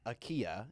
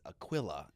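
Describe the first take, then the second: First: The middle has a Y-like glide, no L. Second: The middle has a clear L sound. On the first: The speaker calls it wrong. "it's not Akia, you know, it's not like a double L sound" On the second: The speaker calls it right. "It's Aquila"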